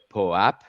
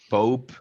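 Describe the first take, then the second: First: It does not sound like the word pope. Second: It sounds like the English word pope.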